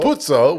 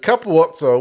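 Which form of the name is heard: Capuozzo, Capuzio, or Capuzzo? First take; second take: Capuzzo; Capuozzo. First: The name is said with a 'u' sound, three syllables. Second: The name is said with a 'uo' sound, four syllables. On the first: The speaker calls it wrong. "as far as I'm aware, the incorrect one" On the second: The speaker calls it right. "as far as I'm aware, is the correct one"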